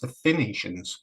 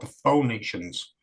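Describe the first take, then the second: First: The name is said like 'Finians', starting with 'fin'. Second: The name is said the usual way, like 'fuh-nee-shuns'. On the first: It refers to the Irish people. The speaker calls it right. "all you have to do is just simply say it's the Phoenicians" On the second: It refers to the Mediterranean people. The speaker calls it wrong. "not the Phoenicians"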